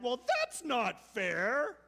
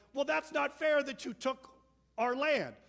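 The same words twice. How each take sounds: First: Slow, higher, louder whiny protest; mock whine. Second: Higher, louder, whiny protest; indignant complaint. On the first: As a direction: drag out the unfair complaint. Us complaining when wronged. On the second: Retold or imitated. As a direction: whine that it's unfair, louder. People complaining about lost land.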